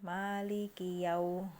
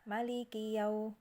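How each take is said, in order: First: The first vowel of Maliki is long. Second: The first vowel of Maliki is short. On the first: This is another reader's transmitted reading. "dibaca yang panjang" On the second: This is one reader's transmitted reading. "dengan mak pendek"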